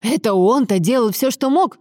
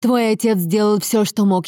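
First: Incredulous question rising at the end; mocking, higher-pitched disbelief; sarcastic echo. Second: Earnest, slightly raised assertion; insistent, mildly heated defence; firm defence. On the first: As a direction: throw the words back in scorn. Son throws mother's words back scornfully. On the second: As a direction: stand up for him firmly. Wife firmly defends her husband. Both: A narrator's reading.

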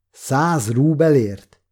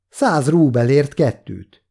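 First: Slow disbelieving repeat of "Száz rúbelért?"; incredulous echo. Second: Said in the usual way. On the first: A narrator's reading. Boy repeats Kolya's price, mildly angry disbelief. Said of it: "Mérgesen néztem föl Koljára".

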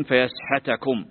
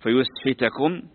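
First: Slow, careful "فيسحتكم" with ya- and -ḥa-; fath on ya and ha. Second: Slow, careful "فيسحتكم" with yu- and -ḥi-; damm on ya, kasr on ha. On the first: Teacher showing the second reading, "فيسحتكم" recited as fa-yasḥatakum. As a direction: say "فيسحتكم" as fa-YAS-ḤA-takum, with a after both the y and the ḥ. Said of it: "بفتح الياء والحاء". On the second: Teacher showing students a Quranic reading, "فيسحتكم" recited as fa-yusḥitakum. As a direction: say "فيسحتكم" as fa-yus-HI-takum, with u after the y and i after the ḥ. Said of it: "بضم الياء". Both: Shown as a demonstration.

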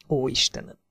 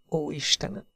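First: Softer hushed "Ó, Istenem!" with a falling end; whispered prayer. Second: "Ó, Istenem!" whispered, much softer, rising at the end; whispered prayer. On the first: Hazel hiding behind the tree after the splash, hushed whisper. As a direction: breathe "Ó, Istenem!" barely aloud. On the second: Hazel repeating it in shock behind the tree, whisper. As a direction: breathe "Ó, Istenem!" again, almost voiceless. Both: A narrator's reading. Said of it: "suttogta újra meg újra".

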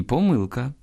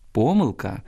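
First: "помилка" stressed on "мил"; middle-syllable stress. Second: "помилка" stressed on "по"; first-syllable stress. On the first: Teacher showing a double stress, "помилка" stressed on "мил". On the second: Teacher showing a double stress, "помилка" stressed on "по". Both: Shown as a demonstration. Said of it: "двояке наголошування нормативне".

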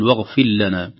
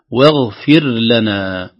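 First: "واغفر لنا" run together as "waghfil-lana"; merged ra. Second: Very slow "واغفر لنا" with a distinct ر before ل; clear ra. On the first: Teacher shows the error to avoid, ر merged into ل. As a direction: swallow the ر of "واغفر" into the ل. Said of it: "يحذر أن تدغم في اللام". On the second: Teacher models correct recitation, ر kept apart from ل. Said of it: "الراء أيضًا إذا سكنت قبل اللام". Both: Shown as a demonstration.

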